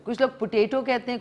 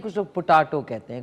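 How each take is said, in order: First: पोटैटो said as "pu-TAY-to", higher and lighter; पोटैटो as "puteto"; potato said "puteto". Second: पोटैटो said as "pu-TAA-to", lower with an open "aa"; पोटैटो as "putato"; potato said "putato". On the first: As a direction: say पोटैटो with a long "ay" in the middle. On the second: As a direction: say पोटैटो with a broad "aa" in the middle. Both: Shown as a demonstration.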